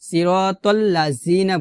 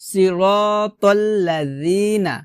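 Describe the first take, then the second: First: The middle consonant is a hard z-like sound. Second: The middle consonant is a soft th sound. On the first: The speaker calls it wrong. "জিহ্বার আগে নিচে দাঁতের সঙ্গে লাগিয়ে উচ্চারণ করি" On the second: The speaker calls it right. "জিহ্বার আগা উপরে দুই দাঁতের আগার সঙ্গে লাগিয়ে"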